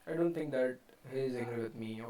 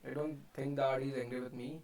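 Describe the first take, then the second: First: 'He is' is said as two full words. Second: 'He is' is shortened to 'he's'. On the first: The speaker calls it wrong. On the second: The speaker calls it right.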